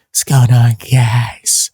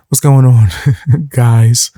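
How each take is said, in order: First: Strained, raspy greeting. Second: Punchier, louder retake of the greeting; louder intro. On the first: Real, not acted. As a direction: rasp through a tired voice. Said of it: "my raspy voice?". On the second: Shown as a demonstration. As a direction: push the greeting out with energy. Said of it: "start taking more vocal breaks".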